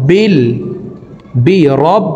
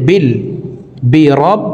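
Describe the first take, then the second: No difference in how they are said.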